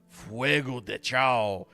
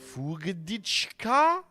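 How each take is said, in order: First: The name is said as three separate words. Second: The name is run together as one word. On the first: The speaker calls it right. "instead of doing Fuego de Chao" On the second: The speaker calls it wrong. "they always try and do like Fugadichka"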